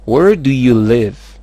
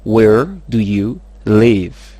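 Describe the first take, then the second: First: Slow, loud model question. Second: Very slow, loud, words set apart; word-by-word model. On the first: Teacher gives learners the question to repeat, slow and loud. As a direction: model it clearly, drawn out. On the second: Teacher has learners repeat, very slow word by word. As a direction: spell out the question word by word. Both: Shown as a demonstration.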